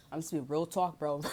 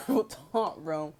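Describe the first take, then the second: First: Said in the usual way. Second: Laughing. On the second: Real, not acted. Telling viewers to keep it real, laughing. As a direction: repeat it through a laugh.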